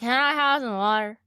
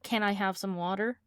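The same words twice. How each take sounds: First: The words run together without clear stops. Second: Each word is clearly separated and enunciated. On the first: The speaker calls it wrong. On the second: The speaker calls it right.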